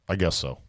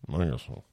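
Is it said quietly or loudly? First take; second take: loudly; quietly. First: It is said louder and clearer. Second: It is mumbled quietly and reluctantly.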